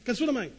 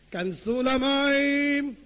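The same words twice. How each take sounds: First: Said in the usual way. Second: כנסו למים drawn out slowly, each word weighted; slow, deliberate כנסו למים with למים long and heavy; slow emphatic command. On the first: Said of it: "repeated, drawn out". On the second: Shown as a demonstration. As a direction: stretch כנסו למים into a slow solemn order. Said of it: "repeated slowly for emphasis".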